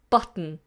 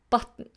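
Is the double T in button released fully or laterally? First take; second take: laterally; laterally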